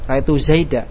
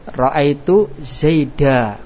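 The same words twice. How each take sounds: First: The final vowel is said faintly and softly. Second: The final vowel is said fully and clearly. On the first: "harokat huruf yang diwaqaf dengan suara pelan" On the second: "fathah harus dibaca jelas"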